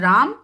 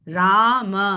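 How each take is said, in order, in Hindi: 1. यह केवल म पर खत्म होता है, होंठ बंद। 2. म के बाद एक स्वर है। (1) "मुंह बंद" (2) "म कहने के लिए मुंह खुलेगा"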